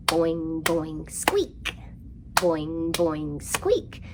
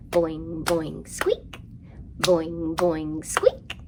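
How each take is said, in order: Both takes have the same delivery.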